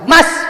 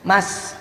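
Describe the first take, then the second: First: It is called at a very high pitch. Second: It is called at a normal pitch.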